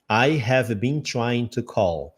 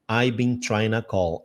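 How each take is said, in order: First: Every word is said fully, 'I have' separately. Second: 'I have' is squeezed into one short syllable. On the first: "você vai ler I have been trying to call" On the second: "Só que ele fala I've been trying to call"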